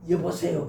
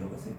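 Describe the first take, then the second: First: It is said in a harsh, offensive tone. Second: It is said in a soft, gentle tone.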